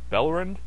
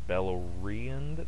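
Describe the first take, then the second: First: The name is said with fewer, squeezed syllables. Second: The name is said with all its syllables. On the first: "Bellerand is easy to say" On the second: "Beleriand is just too many syllables"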